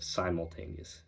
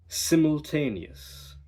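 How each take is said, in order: First: It uses the familiar everyday pronunciation. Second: It uses the coached accent's pronunciation. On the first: "instead of" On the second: "Here are some different pronunciations entirely"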